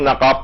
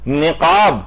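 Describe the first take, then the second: First: The first vowel is an 'a' sound. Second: The first vowel is an 'i' sound. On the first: The speaker calls it wrong. "ऐसे लोग नकाब पढ़ते हैं" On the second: The speaker calls it right. "नून के नीचे जेर"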